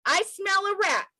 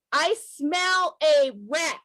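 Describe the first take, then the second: First: Said in the usual way. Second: I smell a rat, said slowly, every word weighed; slow emphatic idiom. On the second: Shown as a demonstration. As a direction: lean on I smell a rat, drawn out and deliberate. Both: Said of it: "as we say in the U S".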